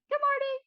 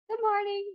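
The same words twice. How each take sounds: First: The greeting sounds chipper, with brighter pitch. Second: The greeting sounds slightly subdued, with lower pitch. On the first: She is in her usual cheerful mood. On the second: She is a bit tired this morning.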